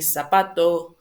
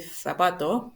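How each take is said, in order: First: The first sound is an 's' sound. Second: The first sound is a 'th' sound. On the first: This is how people in Latin America say it. "But in Latin America, we will say zapato" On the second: This is how people in Spain say it. "they will say zapato"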